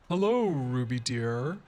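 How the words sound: It is said in a deep, cultured voice.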